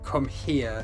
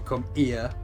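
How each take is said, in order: First: The word here starts with a clear H. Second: The word here starts without any H. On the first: "don't come here" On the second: "they don't say their H's"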